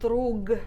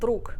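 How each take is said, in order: First: The final consonant is voiced. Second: The final consonant is voiceless. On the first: The speaker calls it wrong. "which is spelled drug" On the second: The speaker calls it right. "we pronounce it with a voiceless equivalent druk"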